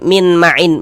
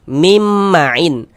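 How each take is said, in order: First: The first word ends with a separate n sound. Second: The first word ends with a merged m sound. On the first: The speaker calls it wrong. "Jangan dibaca min" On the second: The speaker calls it right. "sehingganya kita baca mim ma'in"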